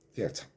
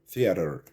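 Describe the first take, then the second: First: It is said in a British accent. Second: It is said in an American accent. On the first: "but in British English, it's theater" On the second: "Americans say theater"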